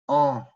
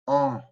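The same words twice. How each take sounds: Both takes have the same delivery.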